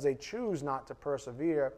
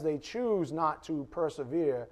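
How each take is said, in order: First: Said in the usual way. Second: Slow weight on "choose"; stress on choose. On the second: Shown as a demonstration. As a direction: choose leaned on, slow and deliberate. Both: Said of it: "Emphasis on the word choose".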